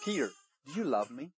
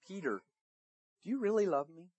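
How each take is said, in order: First: Softer voice, quickly asked; gentle question. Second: Soft, with the name set apart; gentle, searching question. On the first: Jesus to Peter around the fire, gentle question. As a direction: ask it quietly and tenderly. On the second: Jesus asks Peter a third time, gentle and searching. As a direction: press tenderly on "really", keeping it quiet. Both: Acted.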